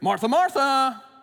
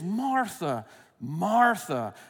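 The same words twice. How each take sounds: First: It is said in a scolding, rebuking tone. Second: It is said in a tender, concerned tone.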